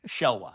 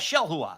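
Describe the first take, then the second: First: The middle has no h sound before wa. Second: The middle has an h sound before wa. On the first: The speaker calls it wrong. "I just ignored the H in the middle because I don't know what to do with that" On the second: The speaker calls it right. "There you go"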